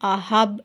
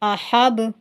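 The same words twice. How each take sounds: First: The final consonant stops with no bouncing vowel. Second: The final consonant bounces with a short vowel. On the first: The speaker calls it wrong. "ऐसे नहीं पढ़ना" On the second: The speaker calls it right. "आधे पेश की आवाज़ के साथ पढ़ना है"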